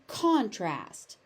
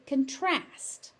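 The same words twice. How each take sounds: First: The stress is on the first syllable. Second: The stress is on the second syllable. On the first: It is used as a noun. "So noun" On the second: It is used as a verb.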